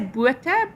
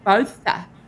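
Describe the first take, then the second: First: The name has a South African pronunciation. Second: The name has an English pronunciation. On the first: "in South Africa, w- like Botha, we would say Botha" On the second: "in um, England they say Botha"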